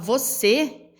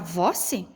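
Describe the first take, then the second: First: The stress is on the last syllable. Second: The stress is on the first syllable. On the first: The speaker calls it right. "essa sílaba aqui, a gente pronuncia ela mais forte" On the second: The speaker calls it wrong. "se eu fosse pegar aqui o vou... a sílaba é mais forte"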